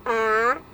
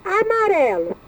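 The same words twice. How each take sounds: First: "Amarelo" broken into a, ma, re, lo, a pause after each; "Amarelo" as four detached syllables. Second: Said in the usual way. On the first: Shown as a demonstration. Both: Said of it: "separar em sílabas".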